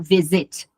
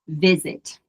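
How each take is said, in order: First: The stress is on the last syllable. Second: The stress is on the first syllable. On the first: The speaker calls it wrong. "Eu não falo visit" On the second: The speaker calls it right. "eu falo visit"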